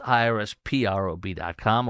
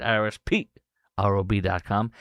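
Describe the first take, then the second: First: Said in the usual way. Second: Lightly mimicked spelling, "P" set apart from "R O B"; Randy's way. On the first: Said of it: "or as Randy likes to say it". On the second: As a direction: spell it out with a squeaky jump on "P", pause, then "R O B dot com". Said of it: "as Randy likes to say it".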